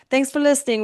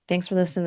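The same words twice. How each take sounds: First: It is said in an attempted British accent. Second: It is said in the speaker's normal American accent.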